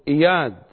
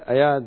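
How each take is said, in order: First: The name begins with an 'i' vowel. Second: The name begins with an 'a' vowel. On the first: The speaker calls it right. "القراءة الصحيحة إياد وليست أياد" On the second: The speaker calls it wrong. "هكذا نقول أياد علاوي، نحن دائما نلفظ الأسماء خطأ"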